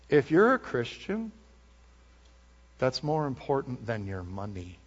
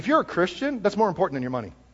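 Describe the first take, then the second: First: It is said slowly and deliberately. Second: It is said at a normal pace.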